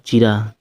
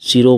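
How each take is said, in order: First: The word begins with a ch sound. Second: The word begins with an s sound. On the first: The speaker calls it wrong. "चीरा ... नहीं" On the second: The speaker calls it right. "सिरो बोलना चाहिए था"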